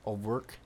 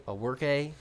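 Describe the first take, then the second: First: "O'Rourke" said as oh-WORK, two syllables; uncertain surname attempt. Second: "O'Rourke" said as oh-WORK-ay, three syllables; mangled surname attempt. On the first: Guessing a friend's last name for a co-host, "O'Rourke" as oh-work. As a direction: try "O'Rourke" as oh-work, ending on the k. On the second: Fumbling a friend's last name for a co-host, "O'Rourke" as oh-work-ay. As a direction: add an "ay" to the end of "O'Rourke". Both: Shown as a demonstration. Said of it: "I'm sure I just murdered his last name".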